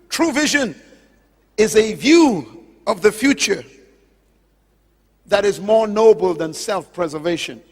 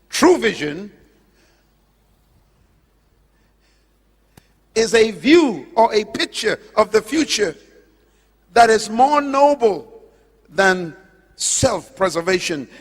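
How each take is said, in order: First: It is said at a normal pace. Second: It is said slowly and deliberately.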